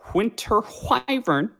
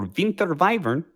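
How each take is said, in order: First: The name is said in a plain English way. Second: The name is said with a Croatian-style pronunciation.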